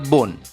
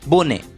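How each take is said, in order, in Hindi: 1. अंतिम e मौन है, शब्द में एक ही अक्षर है। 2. अंतिम e एक अक्षर के रूप में उच्चारित होता है। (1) "इन शब्दों का उच्चारण होता है" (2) "बी ओ एन ई का उच्चारण होगा बोने"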